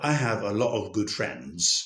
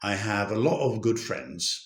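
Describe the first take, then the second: First: The t in 'lot' becomes a glottal stop. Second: The same.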